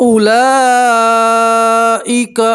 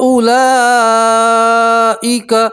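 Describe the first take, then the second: The two takes are said the same way.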